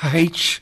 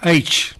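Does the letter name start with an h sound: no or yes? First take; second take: yes; no. First: The letter name starts with an h sound. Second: The letter name starts with a vowel sound. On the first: The speaker calls it wrong. "Not H" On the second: The speaker calls it right. "but H"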